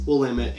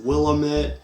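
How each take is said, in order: First: It uses the local pronunciation of the name. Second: It uses an outsider pronunciation of the name. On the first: The speaker calls it right. "No, it's" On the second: The speaker calls it wrong. "what people outside of Portland do"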